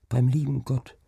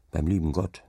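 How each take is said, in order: First: Put-on a lightly higher child's voice, stress on Beim; child repeating. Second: Said in the usual way. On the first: Child repeating the father's words, lightly higher and wondering. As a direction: echo "Beim lieben Gott" like a wondering child. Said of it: "wiederholte das Kind". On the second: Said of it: "sagte der Deichgraf".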